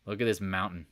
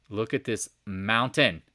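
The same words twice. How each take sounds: First: Said in the usual way. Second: Slow, with "mountain" drawn out; stress on mountain. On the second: Shown as a demonstration. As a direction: lean hard and slowly on "mountain". Repeats it slowly for emphasis.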